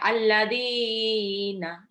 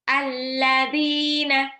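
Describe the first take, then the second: First: The long vowel is drawn out much longer. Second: The long vowel is held only briefly. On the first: The speaker calls it wrong. "Jadi nggak sampai alladzina. Nggak" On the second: The speaker calls it right. "Cukup satu ayunan"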